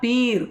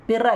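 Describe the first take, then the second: First: The vowel is said long. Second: The vowel is said short. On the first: The speaker calls it right. "പീർ കേട്ടോ" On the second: The speaker calls it wrong. "പിർ അല്ല"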